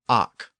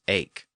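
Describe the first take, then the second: First: It is said in the old pronunciation. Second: It is said in the modern pronunciation. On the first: "The verb form was ach" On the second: "pronounced today as ache"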